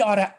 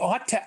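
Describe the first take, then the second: First: The two words run together like oughta. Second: The two words are said separately.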